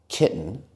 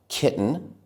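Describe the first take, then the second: The two takes are said the same way.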